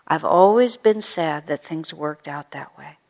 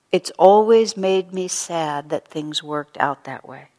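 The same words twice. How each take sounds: First: Slow, kind and sincere; gentle sincere regret. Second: Slow, gentle and sincere, a mild touch of sorrow; gentle sincere regret. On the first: Shown as a demonstration. Teacher repeating Paula's words as a model, slow and kind. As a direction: offer it as common ground, gently. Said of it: "finding a way to say it". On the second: Retold or imitated. Paula on the phone to her old rival, slow and gently regretful. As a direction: soften it into an honest regret. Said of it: "what she says on the phone is".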